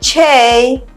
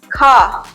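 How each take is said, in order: First: The letter ends with an 'ay' vowel. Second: The letter ends with an 'ah' vowel. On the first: The speaker calls it right. "the letter K should be pronounced K" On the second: The speaker calls it wrong. "pronounce it incorrectly as Ka"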